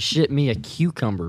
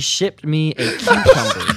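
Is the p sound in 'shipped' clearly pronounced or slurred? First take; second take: slurred; clearly pronounced. First: The p sound in shipped is slurred. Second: The p sound in shipped is clearly pronounced. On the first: The speaker calls it wrong. "You did not enunciate that enough" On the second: The speaker calls it right. "It's a p sound"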